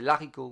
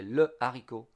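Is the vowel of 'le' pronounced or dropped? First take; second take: dropped; pronounced. First: The vowel of le is dropped. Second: The vowel of le is pronounced separately. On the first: The speaker calls it wrong. "we don't say l'haricot" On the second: The speaker calls it right. "we say le haricot"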